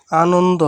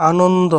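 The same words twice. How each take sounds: The two takes are said the same way.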